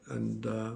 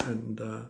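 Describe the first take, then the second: No difference in how they are said.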